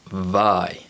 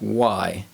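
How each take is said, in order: First: The word begins with a V sound. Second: The word begins with a W sound. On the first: The speaker calls it wrong. "some students incorrectly pronounce this word vi. And this is incorrect because the letter W never produces the V sound" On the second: The speaker calls it right. "The W sound is usually represented by the letter W in words like Y"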